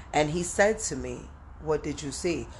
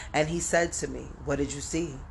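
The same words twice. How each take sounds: Both takes have the same delivery.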